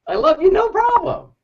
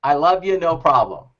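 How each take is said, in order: First: Very high, chirpy quote of himself; high mock-cheerful yes; mock eager yes. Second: Said in the usual way. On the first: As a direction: squeak it out like an overeager helper. Mocking his own eager reply. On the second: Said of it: "And what did I say?".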